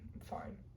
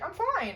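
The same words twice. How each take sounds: First: It sounds upset and displeased. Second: It sounds genuinely content and untroubled. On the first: The person is not actually fine. "you're not fine with the second one" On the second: The person really is fine. "could be like "I'm fine,""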